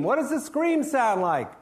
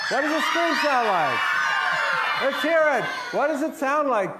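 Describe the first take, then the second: First: Said in the usual way. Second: Higher, louder rallying call; calling out to the crowd. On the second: Real, not acted. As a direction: pump the audience up to scream. Rousing audience to scream.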